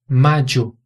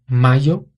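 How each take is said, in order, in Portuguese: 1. A consoante do meio é um som de dj. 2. A consoante do meio é um som de y simples. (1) "um som que é bem próximo do D J em português" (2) "Na Espanha seria mayo"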